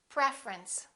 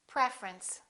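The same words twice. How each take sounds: Both takes have the same delivery.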